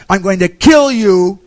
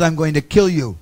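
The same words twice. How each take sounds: First: "kill" hammered loud and high, slow; furious threat. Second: Said in the usual way. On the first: Retold or imitated. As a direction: bellow "I'm going to kill you" like a raging god. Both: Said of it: "started yelling at him".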